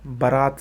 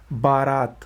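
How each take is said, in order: First: बारात said "ba-raat", short first vowel; correct pronunciation. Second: बारात with long first "baa"; wrong pronunciation. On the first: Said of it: "सही है". (बारात को "बरात" बोलें) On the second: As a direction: stretch both vowels of बारात. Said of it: "ये गलत है". (बारात में लंबा "बा") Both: Shown as a demonstration.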